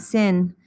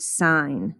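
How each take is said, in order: First: Sin said like the everyday word; sin rhyming with pin; sin, short i. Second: Sine said like "sign"; drawn-out sine, rhyming with line; sine, long i. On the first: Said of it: "not sin". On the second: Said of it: "This is pronounced sine". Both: Shown as a demonstration.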